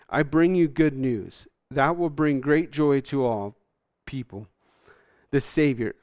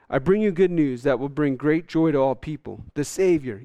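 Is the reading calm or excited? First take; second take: calm; excited. First: It is read in a calm, plain way. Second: It is read in an excited, lively way. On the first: The speaker calls it wrong. "I can't even read this with the right excitement" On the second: The speaker calls it right. "But so this is the angel"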